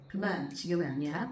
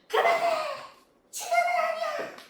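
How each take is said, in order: First: It is said in a low, flat voice. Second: It is said in a high, sharp voice.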